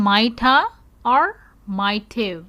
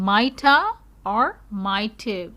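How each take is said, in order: No difference in how they are said.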